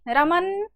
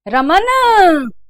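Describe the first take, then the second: First: The name is called with a short final sound. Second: The final sound of the name is drawn out.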